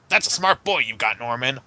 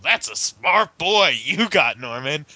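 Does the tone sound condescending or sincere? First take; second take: sincere; condescending. First: It is read in a plain, sincere tone. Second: It is said in a mocking, condescending tone. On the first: The praise is meant seriously. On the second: The praise is not meant seriously.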